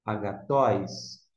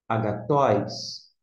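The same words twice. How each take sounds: First: Agatóis, slow, stress on the last syllable TÓIS; slow Greek word. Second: Agatóis, slow, stress on TÓIS; slow Greek word. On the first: (agatóis devagar, tônica no TÓIS) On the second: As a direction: repeat Agatóis slowly, stressed at the end. (Agatóis devagar, tônica no TÓIS) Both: Shown as a demonstration. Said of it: "por isso você vai ler".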